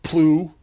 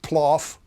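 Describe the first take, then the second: First: The word rhymes with through. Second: The word rhymes with cough. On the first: "not plew" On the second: "not ploff"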